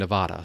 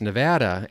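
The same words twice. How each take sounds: First: The name is said the Midwestern way. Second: The name is said the local Nevada way. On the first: The speaker calls it wrong. "I come from the Midwest, and I'm so used to saying Nevada" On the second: The speaker calls it right. "she says it's Nevada"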